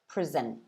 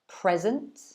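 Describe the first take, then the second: First: The stress is on the second syllable. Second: The stress is on the first syllable. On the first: It is the verb. "the verb, is present" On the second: It is the noun. "The first one is present"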